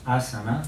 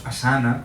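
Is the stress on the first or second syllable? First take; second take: first; second. First: The stress is on the first syllable. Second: The stress is on the second syllable. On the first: The speaker calls it right. "es drújula" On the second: The speaker calls it wrong. "no digamos asana, como tendemos a decir los españoles, porque cambiamos el, el acento de la palabra"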